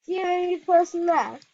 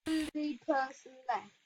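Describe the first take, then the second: First: Louder, a bit higher, indignant; exasperated outcry. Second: Soft, deflated echo of the last line; quiet repeat. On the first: Target scolding dead teammates, loud and indignant. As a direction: complain loudly that you're all alone. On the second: Alone in the game, repeating it to himself, quiet and deflated. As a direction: mutter it again under your breath. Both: Real, not acted.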